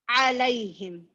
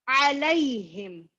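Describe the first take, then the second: The two takes are said the same way.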